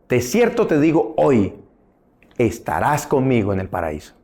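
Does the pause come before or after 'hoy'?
after. The pause comes after the word 'hoy'. The assurance is given today about future paradise. The speaker calls it right. "hoy te estoy asegurando que vas a estar conmigo en el paraíso"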